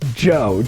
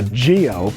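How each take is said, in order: First: The name is said in an Italian style. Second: The name is said in an English style.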